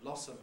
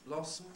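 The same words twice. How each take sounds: First: A schwa vowel comes before the final m. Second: The final m forms its own syllable. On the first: "Schwa and m" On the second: "may make syllabic m"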